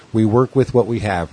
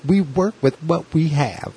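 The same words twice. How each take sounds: First: Said in the usual way. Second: Much higher, slow, put-on character voice; Saturday Night Live character. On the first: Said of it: "and I was like". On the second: The lady echoing his line back, higher, slower and hammed up. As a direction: ham it up like a sketch-comedy lady. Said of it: "like a total, like, Saturday Night Live character".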